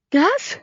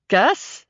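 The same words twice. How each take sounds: First: Very high, anxious call; octave-higher yell. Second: Contained, higher-pitched questioning shout. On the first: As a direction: yell the name way up in pitch. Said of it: "the timbre of her voice rose an octave". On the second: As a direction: call the name out, without full volume. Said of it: "I shouted". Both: A narrator's reading.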